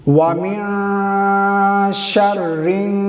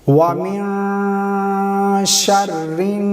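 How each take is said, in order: No difference in how they are said.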